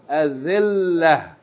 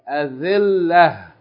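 The two takes are said the same way.

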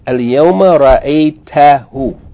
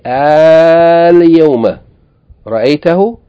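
First: The first vowel is short. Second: The first vowel is long. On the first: It states that someone was seen today. "Today, you saw him" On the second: It asks whether someone was seen today. "hamza with fatha elongated by an alif"

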